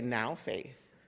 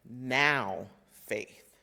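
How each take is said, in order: First: The stress falls on faith, not now. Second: The stress falls on now.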